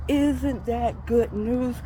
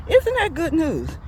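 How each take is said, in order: First: Drawn-out, savored rhetorical question; slow emphatic question. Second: High, lively rhetorical question; delighted exclamation. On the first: Preacher pressing the good news on listeners, slow and emphatic. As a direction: stretch ISN'T THAT GOOD NEWS slowly, word by word. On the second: Preacher reacting to the verse just read, delighted and high. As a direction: burst out with it, pitched high. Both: Real, not acted.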